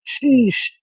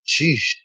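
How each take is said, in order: First: Sheesh. squeaked up high, stretched out; high mock sheesh. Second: Said in the usual way. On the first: Streamer answering chat with a high, teasing Sheesh.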